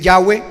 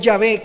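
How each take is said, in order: First: The name is said with a w sound. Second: The name is said with a v sound. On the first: The speaker calls it wrong. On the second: The speaker calls it right.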